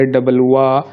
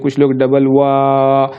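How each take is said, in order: First: Said in the usual way. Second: Slow, with the "वा" in "double वा" stretched out long; drawn-out pluta vowel. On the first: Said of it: "कुछ लोग इतना ही कहकर रुक सकते हैं". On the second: Shown as a demonstration. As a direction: hold the "वा" of "डबल वा" like a call across a distance, slowly. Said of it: "इसको प्लुत में क्या होता है कि इसको खींचा जाता है". ("डबल वा" धीरे, "वा" को प्लुत की तरह खींचकर)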